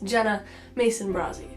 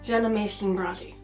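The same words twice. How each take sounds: First: The s-type sounds are pronounced clearly. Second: The s-type sounds are pronounced with a lisp. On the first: This is how the name sounds now. "My name is" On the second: This is how the name sounded in childhood. "It used to sound like"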